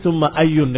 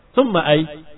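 First: The second word ends with a final n sound. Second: The second word ends without any final vowel. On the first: The word is not in a construct phrase. "thumma ayun dengan tanwin" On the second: Stopping on the word avoids choosing a case ending. "kamu sukunkan selamat"

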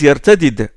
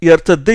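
First: The final consonants are pronounced separately, unmerged. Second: The final consonants are merged into one doubled sound. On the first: This is the form used by the Quraysh. "ils n'emploient pas souvent l'élision" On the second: This is the form used by tribes that assimilate. "Au lieu de « yartadda »"

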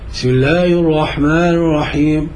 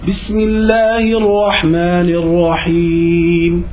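First: Letters are swallowed and the words run together. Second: Each letter is recited clearly at natural pace. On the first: The speaker calls it wrong. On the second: The speaker calls it right.

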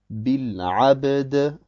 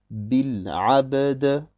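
The two takes are said the same way.

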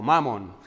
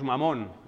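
First: The stress is on the first syllable. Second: The stress is on the last syllable.

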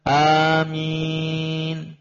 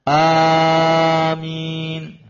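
First: The first vowel is short; the second is long. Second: The first vowel is drawn out long. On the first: The speaker calls it right. "Yang benar" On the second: The speaker calls it wrong.

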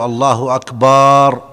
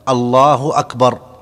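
First: The vowel after b is drawn out. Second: No vowel is drawn out. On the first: The speaker calls it wrong. "لا يجوز أن يمد الباء في أكبر" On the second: The speaker calls it right. "أن تكون بهذا اللفظ الله أكبر"

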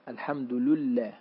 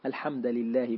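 First: The d and l carry u vowels: al-hamdu lullah. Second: The d carries an a vowel: al-hamda lillah. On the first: The second word copies the vowel of the first. "بضم الدال واللام" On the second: An implied verb governs the phrase. "بالنصب"

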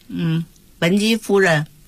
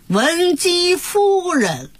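First: It is read plainly, like everyday speech. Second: It is read with a stylized, melodic stage intonation. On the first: The speaker calls it wrong. "台词要跟平常生活一样，越生活越好" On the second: The speaker calls it right. "要有这个腔调"

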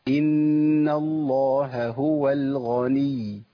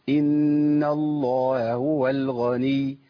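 No difference in how they are said.

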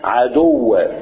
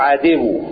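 First: The d sound carries a u vowel. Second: The d sound carries an i vowel. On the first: The speaker calls it right. "الدال عليها ضمة" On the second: The speaker calls it wrong. "لا نطقها كسر. انت تقول عدو"

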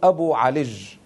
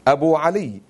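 First: The name ends in a j sound. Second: The name ends in a y sound. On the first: "فأبدلوا الباء الألياء المشددة والمخففة جيما" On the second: "بدلا من"

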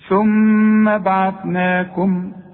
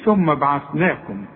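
First: The doubled m is held with a nasal hum. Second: The doubled m is short, without nasal hum. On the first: The speaker calls it right. "لكن أرجوك الميم غنها مدام عليها الشدة" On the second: The speaker calls it wrong. "ما تقولش ثم بعثناكم"

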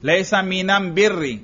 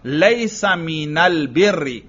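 First: The article is pronounced with m, as 'am'. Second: The article is pronounced with l, as 'al'. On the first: This is the form used in one tribe's dialect. "یہ میم کی جگہ الف لام لگاتے جاؤ" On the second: This is the form used in common Arabic. "عام عرب کا لام ہو تو یوں ہو"

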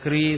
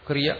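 First: The final vowel is drawn out long. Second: The final vowel is kept short. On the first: The speaker calls it wrong. "ദീർഘമായിട്ടേ പറയത്തുള്ളൂ" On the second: The speaker calls it right. "ക്രിയ എന്ന് മതി"

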